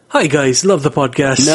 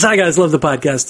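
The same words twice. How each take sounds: First: It is said in a put-on Irish accent. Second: It is said in the speaker's usual accent.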